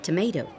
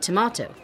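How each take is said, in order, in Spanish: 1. Se dice con acento americano. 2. Se dice con acento inglés. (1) "Americans say tomato" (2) "In England, you say tomato"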